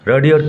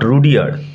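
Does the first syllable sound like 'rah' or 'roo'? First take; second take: rah; roo. First: The first syllable has an open 'ah' vowel. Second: The first syllable has a rounded 'oo' vowel. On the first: The speaker calls it right. "উচ্চারণ লক্ষ্য করো" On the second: The speaker calls it wrong. "Not রুডিয়ার্ড"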